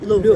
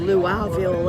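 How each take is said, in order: First: The vowels are reduced and run together. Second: The vowels are pronounced fully and carefully. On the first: The speaker calls it right. "It's Louisville" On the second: The speaker calls it wrong. "we were overpronouncing our vowels"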